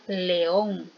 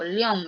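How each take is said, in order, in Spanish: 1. Las vocales e y o forman dos sílabas. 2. Las vocales e y o se unen en una sílaba. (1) "Yo digo" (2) "no digo"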